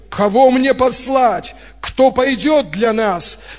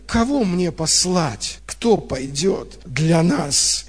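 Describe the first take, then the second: First: It is said in a commanding, summoning tone. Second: It is said in a disappointed, reproachful tone. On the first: The asker is issuing an order or a call. "Раньше я как будто бы представлял по-другому" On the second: The asker is let down that no one responds. "Но я услышал эту интонацию разочарования"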